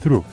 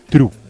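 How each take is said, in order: First: The word begins with a soft TH sound. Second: The word begins with a hard T sound. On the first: The speaker calls it right. "Nunca la voy a pronunciar through" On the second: The speaker calls it wrong. "siempre true"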